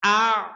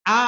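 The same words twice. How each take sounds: First: আ with both the hamza and the ain said clearly and separately; আ said correctly, with both sounds distinct; correct pronunciation. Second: আ with the glottal catch left out; the common mistake of saying আ without the hamza stop; আ said wrongly, without a clear hamza; wrong pronunciation. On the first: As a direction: say আ with a sharp hamza stop, then the ain. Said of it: "দুইটাকেই আমাদের উচ্চারণ করতে হবে।". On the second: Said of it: "অনেকে এরকম বলে". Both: Shown as a demonstration.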